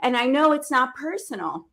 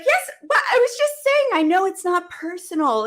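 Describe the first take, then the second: First: Said in the usual way. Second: High, rushed, defensive protest; pitched way up in disbelief; startled protest. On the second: Retold or imitated. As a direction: push back, caught off guard. Her defensive retort to the coach.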